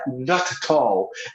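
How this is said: British accent, with clear, closed t sounds. "Lá no inglês britânico é not at all"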